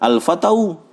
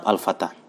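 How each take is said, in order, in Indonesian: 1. Kata itu berakhir dengan bunyi au yang ditambahkan. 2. Kata itu berakhir dengan bunyi a biasa. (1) "Tidak mungkin kita katakan" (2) "tetap al-fata"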